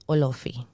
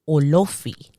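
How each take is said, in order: First: It is said with Spanish pronunciation. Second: The O sounds are strongly emphasized. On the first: "in Spanish, it's easy" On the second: "they really emphasize on those O's"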